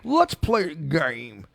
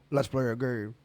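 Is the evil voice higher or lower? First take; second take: higher; lower. First: It is a higher, more cartoonish evil voice. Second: It is a lower, deeper evil voice.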